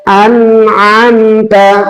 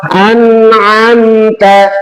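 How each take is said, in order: No difference in how they are said.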